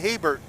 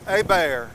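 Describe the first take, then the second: First: It starts with an H sound. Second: It starts with a vowel, no H sound. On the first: The speaker calls it wrong. "I would say Hebert, but no" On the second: The speaker calls it right. "they told me it's Abair"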